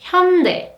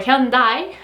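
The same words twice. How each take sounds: First: It is said with a Korean pronunciation. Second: It is said with an English pronunciation. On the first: The speaker calls it right. "in Korean, the correct pronunciation is" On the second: The speaker calls it wrong. "so many variations of this word in English"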